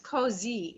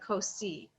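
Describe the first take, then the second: First: The middle consonant is a buzzing Z sound. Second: The middle consonant is a hissing S sound. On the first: The speaker calls it right. "that S is pronounced like a Z" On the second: The speaker calls it wrong. "instead of"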